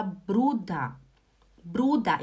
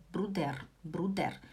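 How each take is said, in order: First: "Bruder" ending in open "da", no R; High German pronunciation. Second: Low, soft Swiss "Bruder" with final R; Swiss German. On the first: Teacher giving the Hochdeutsch form, "Bruder" with final A. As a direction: say "Bruder" as BRU-da. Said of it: "Imagina que tem um A". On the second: Teacher illustrating Swiss dialect, softly, "Bruder" ending in "der". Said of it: "O suíço, ele fala Bruder". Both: Shown as a demonstration.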